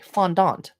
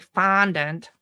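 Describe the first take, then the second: First: It is said with a French pronunciation. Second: It is said with an American pronunciation.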